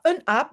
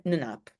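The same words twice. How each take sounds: First: Said in the usual way. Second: « ne naap » avec le n de liaison bien lié; prononciation en tussentaal. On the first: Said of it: "On dit pas un aap". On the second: Shown as a demonstration. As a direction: dire « ne naap », le n collé à « aap ». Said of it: "mais ne naap". (« ne naap » en tussentaal, le n lié)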